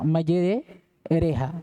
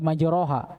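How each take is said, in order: First: The vowel after r leans toward e. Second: The vowel after r is a full open a. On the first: The speaker calls it right. "Dibaca antara fathah dengan kasrah" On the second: The speaker calls it wrong. "Bukan di majroha"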